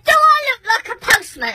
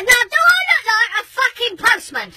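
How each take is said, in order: First: High rhetorical question; indignant challenge. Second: High, shouted repeat stressing "fucking postman"; insistent outrage. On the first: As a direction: challenge him, pitched up with irritation. Angry rhetorical question to neighbour. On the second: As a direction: cut him off and demand an answer. Insistent repeat after being ignored. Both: Retold or imitated.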